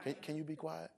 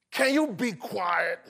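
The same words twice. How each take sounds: First: Soft, mild request; gentle tone. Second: Slow, demanding, word by word; sharp tone. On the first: Preacher showing that tone changes meaning, soft polite request. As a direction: ask very quietly, without any edge. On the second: Preacher contrasting tones of one text, slow exasperated demand. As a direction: draw it out as an exasperated order. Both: Shown as a demonstration. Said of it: "It's different, right? Because of the tone".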